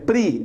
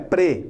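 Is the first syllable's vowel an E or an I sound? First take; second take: I; E. First: The syllable is said with an I vowel. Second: The syllable is said with an E vowel. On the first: The speaker calls it right. "é pri" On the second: The speaker calls it wrong. "não é pre"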